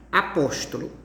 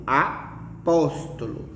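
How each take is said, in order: First: Said in the usual way. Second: "apóstolo" slowly, with PÓS set apart and stressed. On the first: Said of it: "Apóstolo, ela, ela é uma palavra". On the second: Shown as a demonstration. Teacher showing the tonic syllable, stress on PÓS in "apóstolo". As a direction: hit the second syllable of "apóstolo", drawn out. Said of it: "uma sílaba que a pronúncia é bem intensa".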